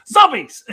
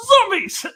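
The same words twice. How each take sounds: First: Loud excited cheer; a quick shouted zombie cheer; mock dumb cheer. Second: High, loud yelp; high shouted zombie cheer; mock dumb cheer. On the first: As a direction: cheer without thinking. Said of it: "You have to just go". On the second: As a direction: yelp it like a mindless fan. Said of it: "you're supposed to just go".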